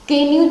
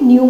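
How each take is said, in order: First: The word starts with an audible k sound. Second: The word starts directly with an n sound. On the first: The speaker calls it wrong. "के न्यू तो नहीं बोलते" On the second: The speaker calls it right. "न्यू बोलते हैं"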